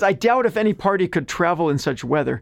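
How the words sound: It is read in a whiny voice.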